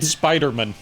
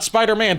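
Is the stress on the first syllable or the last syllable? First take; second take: first syllable; last syllable. First: The stress falls on the first syllable. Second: The stress falls on the last syllable. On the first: It is a family surname. The speaker calls it right. "Like it's a last name" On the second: It is the superhero's name. The speaker calls it wrong. "Not Spider-Man"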